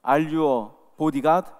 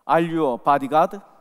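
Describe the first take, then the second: First: The question is spoken slowly, each word distinct. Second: The question is spoken quickly and run together. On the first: "또박또박 이렇게 다시 한번 물으십니다" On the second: "발음이 너무 빨라서"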